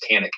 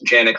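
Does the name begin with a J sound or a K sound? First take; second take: K sound; J sound. First: The name begins with a hard K sound. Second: The name begins with a soft J sound. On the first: It follows how Americans usually say it. "versus Canik" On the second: It follows how it is said in Turkey. "I say Janik"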